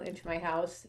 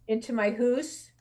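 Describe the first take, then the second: First: House is said with a plain, non-Canadian vowel. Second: House is said with a Canadian 'hoose' vowel.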